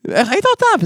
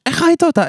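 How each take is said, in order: First: High, incredulous mock outrage; a brother's pitched-up disbelief; shocked question. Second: Repeating his high disbelief; pitched-up incredulous echo; shocked question. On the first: Brother to sibling, voiced high in shocked disbelief. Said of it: "ואז הוא אומר לי". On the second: Retold or imitated. Retelling the brother's reaction, high and incredulous. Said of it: "וזה, ממש".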